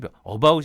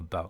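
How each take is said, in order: First: The first vowel is full and forceful. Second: The first vowel is a weak, relaxed schwa. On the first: The speaker calls it wrong. "힘이 about이 아니라" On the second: The speaker calls it right. "아니라 about"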